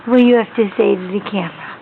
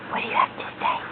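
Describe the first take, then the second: First: Said in the usual way. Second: Whisper. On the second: Real, not acted. Parent whispering to baby on camera.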